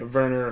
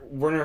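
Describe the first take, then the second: First: The name begins with a German V sound. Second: The name begins with an English W sound.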